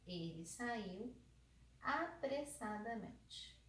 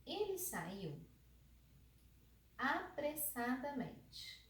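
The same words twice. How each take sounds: First: Said in the usual way. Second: "apressadamente" drawn out and raised; "Ele saiu", a pause, then a slow rising "apressadamente"; spaced-out example. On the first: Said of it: "Apressadamente tá ligado ao sair". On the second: Shown as a demonstration. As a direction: stretch "apressadamente" after a long pause. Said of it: "se eu falo, por exemplo, assim, ó".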